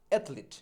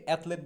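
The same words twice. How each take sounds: First: অ্যাথলিট in two falling beats, "eth-leet"; corrected pronunciation. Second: Said in the usual way. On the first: Shown as a demonstration. Teacher modelling athlete for learners, অ্যাথলিট as careful "eth-leet". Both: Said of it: "অ্যাথলেট বলবো না".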